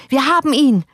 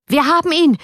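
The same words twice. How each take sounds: First: High, loud triumphant cry; shouted again. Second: Shrieking much higher and louder; gleeful shout. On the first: Surgeon Teikela to the crowd, gloating shout. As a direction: keep yelling it in ugly glee. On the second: Surgeon Teikela waving the paper, shouting in triumph. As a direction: crow it out in vile triumph. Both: A narrator's reading. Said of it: "schrie er".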